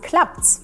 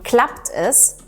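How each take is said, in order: First: Es is cut to an s joined to klappt. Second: Es is said as a separate full word. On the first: This is the casual everyday form. "dann sagen wir auf der Straße klappt's" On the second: This is the careful classroom form. "wenn ich im Unterricht sage"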